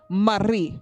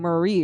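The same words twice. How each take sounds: First: It is said with a Tagalog accent. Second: It is said with a plain English accent.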